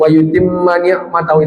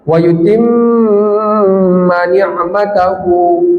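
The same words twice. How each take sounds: First: The doubled m is said quickly and short. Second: The doubled m is held long. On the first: The speaker calls it wrong. "itu keliru, harus lama" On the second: The speaker calls it right. "harus lama"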